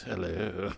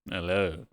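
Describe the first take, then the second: First: Low, soft put-on hello. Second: Low put-on hello. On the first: Explaining the voice to chat, low soft hello. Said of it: "I don't normally sound like this". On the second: Showing chat her not-normal voice, low hello. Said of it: "That's not my normal voice". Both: Shown as a demonstration.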